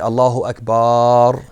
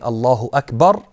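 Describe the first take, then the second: First: The first vowel of Akbar is drawn out. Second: The first vowel of Akbar is short. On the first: God is drums. The speaker calls it wrong. "they elongate the the the the ah sound in akbar" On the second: God is the greatest. The speaker calls it right. "instead of saying"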